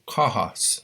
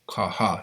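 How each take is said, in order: First: The stress is on the first syllable. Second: The stress is on the second syllable. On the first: "the emphasis is going to be on that vowel" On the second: "If it was on the second A"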